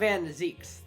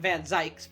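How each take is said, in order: First: The name's vowel sounds like 'ee'. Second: The name's vowel sounds like 'eye'. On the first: The speaker calls it right. "So it's Lord Van Zeeks" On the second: The speaker calls it wrong. "I've been pronouncing it wrong uh, the entire time"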